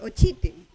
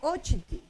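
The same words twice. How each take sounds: First: The stress is not on the first syllable. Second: The stress is on the first syllable. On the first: This breaks the general rule. The speaker calls it right. "pero no es ochiti, es ochiti" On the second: This follows the general rule. The speaker calls it wrong. "para que cumpla la regla debería de ser ochiti"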